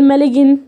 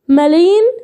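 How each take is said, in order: First: The g is pronounced before the n. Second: The g is silent, with no g sound. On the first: The speaker calls it wrong. "ولا اقول مالجن" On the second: The speaker calls it right. "لا مالين"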